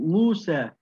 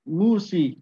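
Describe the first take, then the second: First: The name ends with an 'ah' vowel. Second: The name ends with an 'ee' vowel. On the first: "For example" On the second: "Some of the Arabs say Musi"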